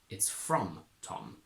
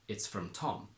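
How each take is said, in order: First: The stress falls on the word from. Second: The stress falls on the word Tom. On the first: It came from him, rather than being for him. "you need to stress from" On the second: It is a plain statement of the source. "with a normal intonation pattern on Tom"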